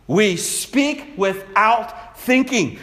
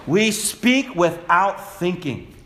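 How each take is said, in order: First: Slow, weight on "thinking", falling at the end; slow and deliberate, "thinking" carries the weight; stress on thinking. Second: Slow, weight on "speak", falling at the end; slow and deliberate, "speak" carries the weight; stress on speak. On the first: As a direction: land the whole line on "thinking". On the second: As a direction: lean on "speak" and let "without thinking" trail. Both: Shown as a demonstration. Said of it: "repeats line, shifts stress".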